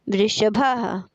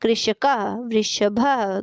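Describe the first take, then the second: First: Said in the usual way. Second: वृषभः drawn out syllable by syllable, very slow; slow demonstration. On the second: Shown as a demonstration. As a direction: spell out वृषभः slowly for the class. (वृषभः को धीरे-धीरे, एक-एक अक्षर बोलिए) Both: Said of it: "चित्र को देखकर पदों का उच्चारण कीजिए".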